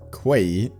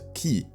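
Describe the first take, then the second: First: The word is said like 'kway'. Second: The word is said like 'key'. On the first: The speaker calls it wrong. "it's not pronounced Quay" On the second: The speaker calls it right. "pronounced Key"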